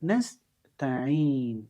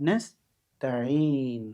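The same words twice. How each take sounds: No difference in how they are said.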